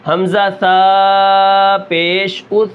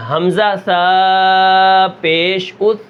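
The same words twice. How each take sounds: First: Slow drill of حمزہ سا پیش اس with the final ث of اس fully voiced; clear final sound. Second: Slow drill of حمزہ سا پیش اس with اس clearly voiced and rising; clear final sound. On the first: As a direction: stretch the syllables and land clearly on اس. (آہستہ ہجے، اس کی آواز صاف) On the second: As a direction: spell it slowly, rise on اس. (آہستہ ہجے، آخر میں اس اونچا) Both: Shown as a demonstration. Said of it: "سا کی آواز بالکل نہیں نکلے گی".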